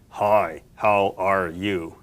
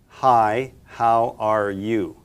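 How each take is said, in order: First: The voice is put on deep and low. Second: The voice is at its ordinary pitch.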